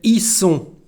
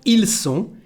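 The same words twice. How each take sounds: First: The L of 'ils' is dropped. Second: The L of 'ils' is clearly pronounced. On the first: "we say ils sont" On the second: "instead of ils sont"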